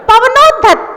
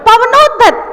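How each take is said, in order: No difference in how they are said.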